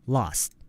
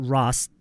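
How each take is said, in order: First: The word begins with a clear L sound. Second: The word begins with an R-like sound. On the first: The speaker calls it right. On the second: The speaker calls it wrong.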